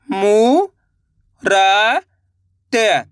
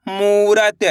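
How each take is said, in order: First: मू रा त spoken one by one with long gaps; separate syllables. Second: Said in the usual way. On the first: Shown as a demonstration. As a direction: sound out each syllable slowly. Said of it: "चलिए देखिए". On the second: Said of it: "तो मिलके बन जाएगा".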